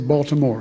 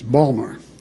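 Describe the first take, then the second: First: It is said the standard, full way. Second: It is said the local Baltimore way.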